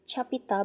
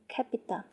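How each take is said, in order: First: The first consonant is not a k sound. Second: The first consonant is a k sound. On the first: The speaker calls it wrong. "we don't say capita" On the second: The speaker calls it right. "when we pronounce C, it will pronounce as key"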